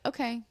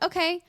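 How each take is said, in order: First: It sounds cold and uninterested. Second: It sounds cheerful and friendly.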